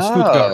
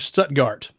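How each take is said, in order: First: It is said with a German accent. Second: It is said with an American accent.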